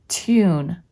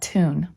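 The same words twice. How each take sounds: First: The vowel is said as 'yoo' with a glide. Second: The vowel is said as a plain 'oo'. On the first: The speaker calls it right. "Care must be taken not to pronounce long U like double O" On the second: The speaker calls it wrong. "not tune"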